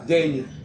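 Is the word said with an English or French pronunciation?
French. It is said with a French soft G sound. "ils disent pas danger"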